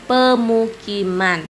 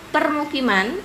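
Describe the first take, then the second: First: No r sound follows the first vowel. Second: An r sound follows the first vowel. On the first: This is the everyday non-standard form. The speaker calls it wrong. "dalam sehari-hari kita menyebutnya pemukiman" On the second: This is the standard form. The speaker calls it right. "kosakata baku"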